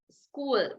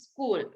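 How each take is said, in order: First: The s sound at the start is clear. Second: The s sound at the start is unclear. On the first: The speaker calls it right. "ඒ වැරද්ද හදාගන්න school. දිව උඩ වදින්න S අකුර pronounce කරන්න" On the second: The speaker calls it wrong. "හුඟක් අය ඕගොල්ලෝ spell කරනවා"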